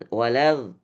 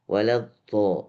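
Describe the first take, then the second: First: The consonant is a plain 'l' sound. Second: The consonant is a soft, breathy 'dh' sound. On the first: The speaker calls it wrong. "nggak walal walal" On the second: The speaker calls it right. "seperti dihembus"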